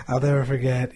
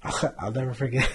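First: "never" hit loud; stress on never. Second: Said in the usual way. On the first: Real, not acted. Telling a podcast host he'll never forget, stressing "never". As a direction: punch "never" louder the second time. Repeated with more force.

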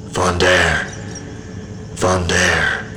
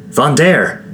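First: Softer, distant call, as if from far away; low echoing voice. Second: Vondair asked much higher, rising up then falling; worried question. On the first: Unseen voice calling Vondair from the ether, a soft distant echo. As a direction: call the name from somewhere beyond, hollow and far. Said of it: "A low, echoing voice called to me". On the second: Quinn checking on the stricken Vondair, an anxious high question. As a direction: ask Vondair? in alarm, voice jumping high. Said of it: "Quinn asked". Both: A narrator's reading.

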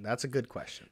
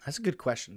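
First: Said in the usual way. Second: Whispering while thinking; breathy unvoiced musing; whispered. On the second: Real, not acted. Pondering, repeats line twice.

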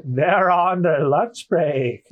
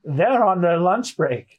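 First: Very slow goat bleat; exaggerated, dragged-out goat man. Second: Slow, bleating goat man; goat-like servant, drawn out. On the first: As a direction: stretch every word like a goat. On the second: Acted. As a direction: drag it out like a goat. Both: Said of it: "I'm gonna read him as a goat".

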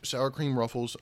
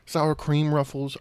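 First: Words pushed out on a burp. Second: Said in the usual way. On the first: Real, not acted. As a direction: burp right through it. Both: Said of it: "excuse me for the burp".

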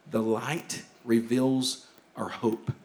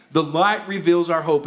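First: Softer, lower, slow and hushed; hushed, slow statement. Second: Fuller, proclaiming; firm proclamation; proclaimed. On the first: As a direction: lay it down quietly first. Key line repeated, first hushed. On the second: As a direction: declare it out to the room. Key line repeated, now proclaimed. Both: Shown as a demonstration.

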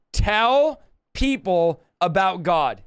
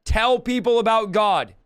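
First: "Tell people about God" very slow, each word spaced; slow emphatic dictation. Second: Said in the usual way. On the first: Shown as a demonstration. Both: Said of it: "let's do four words".

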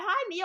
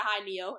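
First: High, bright "Hi, Neil." sung out; "Hi, Neil." pitched high with excitement; eager hi. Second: Calm hi. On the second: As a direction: say "Hi, Neil." coolly, like it's no big deal. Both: Retold or imitated. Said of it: "I said it so calmly".

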